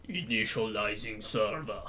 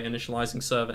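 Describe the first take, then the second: First: Low, slow announcer voice, a touch softer; hammed-up game server announcement; mock system voice. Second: Said in the usual way. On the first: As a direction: intone it like a hardcore computer. Mock computer announcing server start. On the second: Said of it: "Can you say initializing server in your voice".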